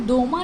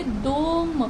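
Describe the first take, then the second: First: "दोमा" with an extra "a" sound at the end; wrong pronunciation. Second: "दोम" short, stress on the O, no ending vowel; right pronunciation. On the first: Teacher shows students the wrong way to say it. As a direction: show the wrong way, ending on "दोमा". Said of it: "हम इसे दोमा नहीं pronounce करेंगे". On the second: Teacher gives students the correct short form. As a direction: say "दोम" cleanly with the weight on O. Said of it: "इसे हम बोलेंगे दोम". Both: Shown as a demonstration.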